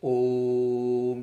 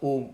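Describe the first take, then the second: First: The vowel is held for an extra long time. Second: The vowel is said short, not drawn out. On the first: The speaker calls it right. "it is Om like that. This is the real pronunciation of Om" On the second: The speaker calls it wrong. "It is not Om or that. That's wrong"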